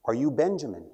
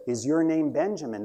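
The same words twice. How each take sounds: First: Said in the usual way. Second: Mild storyteller's yell, pitched higher; a restrained, narrated raising of the voice; slightly louder yell. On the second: A narrator's reading. Boy asking an old man who hasn't looked up, mildly mock yelling. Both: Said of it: "yells a little bit louder".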